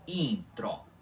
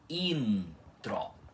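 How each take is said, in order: First: The n only nasalizes the vowel before it. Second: The n is sounded as a full consonant. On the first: The speaker calls it wrong. "e não como intro" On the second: The speaker calls it right. "Eu li esta palavra como intro"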